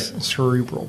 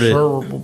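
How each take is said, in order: First: It is said in a standard, careful pronunciation. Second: It is said in a local southern Indiana accent. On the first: This is the technically correct form. "if you get technical about it, it's right" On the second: This is how people in the region say it. "It's just the accent that people have down here in southern Indiana"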